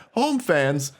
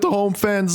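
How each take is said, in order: First: Said in the usual way. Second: Voice crack. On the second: Real, not acted. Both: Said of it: "voice crack".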